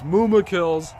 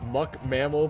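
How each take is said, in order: First: The name starts with a long 'moo' sound. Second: The name starts with a short 'muck' sound. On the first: The speaker calls it right. "It's Mooma kills" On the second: The speaker calls it wrong. "Muck mammal pronunciation pains me myself. I'm sorry"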